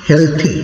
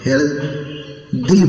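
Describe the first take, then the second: First: The th is a voiceless breathy sound. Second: The th is a voiced 'd'-like sound. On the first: The speaker calls it right. "উচ্চারণ হবে হেলথি।" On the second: The speaker calls it wrong. "আমরা হেলথ দি বলি, তো এটি কিন্তু আসলে ভুল।"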